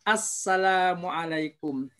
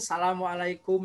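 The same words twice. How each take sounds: First: The glottal stop is pronounced clearly in the greeting. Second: The glottal stop is dropped from the greeting. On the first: The speaker calls it right. "Harus dibaca dengan dengan jelas" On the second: The speaker calls it wrong. "Rata-rata membaca itu Assalamualaikum, nah begitu. Kasihan hamzah ya"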